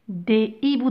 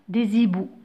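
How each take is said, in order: First: The words are said without a liaison sound. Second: The words are joined with a z liaison sound. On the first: The speaker calls it right. "Donc pas de liaison" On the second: The speaker calls it wrong. "je ne vais pas dire des hiboux. Non, c'est faux"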